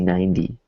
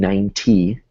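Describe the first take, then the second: First: The middle consonant is a soft D-like tap. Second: The middle consonant is a crisp, hard T. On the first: The speaker calls it right. "It's almost like a D sound" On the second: The speaker calls it wrong. "like a hard T"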